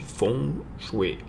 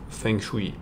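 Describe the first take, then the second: First: It is pronounced with Chinese sounds. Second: It is pronounced with French sounds. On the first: The speaker calls it right. "ça se dit" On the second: The speaker calls it wrong. "en français mal dit"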